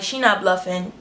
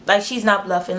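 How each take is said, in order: First: Said in the usual way. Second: "not" leaned on for emphasis; stress on not. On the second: Retold or imitated. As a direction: hit the word "not" to insist.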